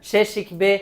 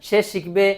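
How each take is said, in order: Both takes have the same delivery.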